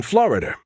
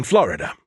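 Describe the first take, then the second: First: "Florida" ending in an R, "Florider"; added R. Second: "Florida" ending in an open uh; standard ending. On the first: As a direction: tack an R onto the end of "Florida". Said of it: "an R at the end but don't". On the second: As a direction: say "Florida" with no R at the end. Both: Acted.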